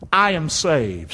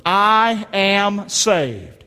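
First: Said in the usual way. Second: Very slow, each word held out; slow declaration. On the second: Shown as a demonstration. Preacher leads congregation repeating after him, slow declaration.

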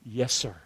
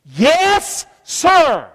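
First: Soft, low reverent yes sir; hushed yes sir. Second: High, meek yes sir; submissive yes sir. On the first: Preacher advising listeners how to answer God, hushed. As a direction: breathe it low in surrender. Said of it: "my advice to you is to say". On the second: Preacher shows the congregation how to answer God, meek and high. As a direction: answer like an obedient servant. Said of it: "say this". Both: Shown as a demonstration.

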